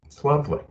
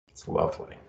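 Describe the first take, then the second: First: "lovely" voiced out, higher and warm; lovely aloud. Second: Breathy hushed whisper; a whisper of contentment; whispered lovely. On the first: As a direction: say it again, fully voiced. Repeats it aloud. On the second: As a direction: let it out softly, savoring it. Savoring the hug release. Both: Real, not acted.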